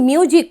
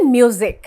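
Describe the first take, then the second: First: The middle consonant is a hissing s sound. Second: The middle consonant is a buzzing z sound. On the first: The speaker calls it wrong. "মিউজিক নয়" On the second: The speaker calls it right. "এই এস কিন্তু sound হবে জি এর মতো বা জেড এর মতো"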